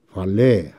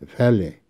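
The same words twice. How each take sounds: First: It is said with an American accent. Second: It is said with a British accent.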